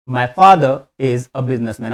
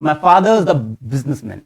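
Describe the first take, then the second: First: "My father is a businessman", slow with "is" separate; slow word-by-word "father is a"; unlinked version. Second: "father is a" linked as "faa-dhuhz-a"; sandwiched words. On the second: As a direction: run "My father is a businessman" together. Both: Shown as a demonstration. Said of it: "sandwiching सिखाऊंगा धीरे धीरे".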